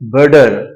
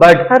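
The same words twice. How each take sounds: First: The t sounds like a soft d. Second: The t is a hard, aspirated t sound.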